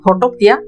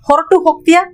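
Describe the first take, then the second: First: The two words are run together into one. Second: The two words are said fully and separately. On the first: "इसको हम जोड़ के बोलते हैं बात करने का फ्लो में" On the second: "इसको ಹೊರಟು ಹೋಗ್ತೀಯಾ बोलते हैं"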